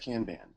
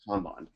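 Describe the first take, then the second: First: It is said with an American pronunciation. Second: It is said with a Japanese pronunciation. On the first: "everyone in the U S says Kanban" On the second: "it should be Kanban"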